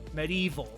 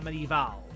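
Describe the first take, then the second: First: The word ends with a sound like 'evil'. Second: The word ends with a sound like 'eval'. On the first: It names the old video game. "Spelled E V I L" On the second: It names the historical period. "not E V A L"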